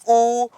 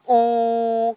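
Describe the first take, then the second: First: The vowel is long, held two beats. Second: The vowel is very long, held three beats. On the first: "फिर जो हमने बोला ऊ ये है दीर्घ" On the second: "अंत में जो हमने बोला ऊ ये है प्लुत"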